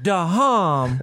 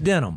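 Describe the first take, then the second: First: The name is said with a drawn-out, mangled vowel. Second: The name is said plainly, like denim. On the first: The speaker calls it wrong. "It's not Dahom" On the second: The speaker calls it right. "no, it's just denim"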